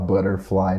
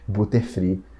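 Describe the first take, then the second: First: It is said with a native-like English accent. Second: It is said with a heavy Brazilian-Portuguese accent. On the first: This is how skilled speakers say it. The speaker calls it right. "não falava butterfly" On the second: This is how beginners say it. The speaker calls it wrong. "Nasci igual vocês falando butterfree"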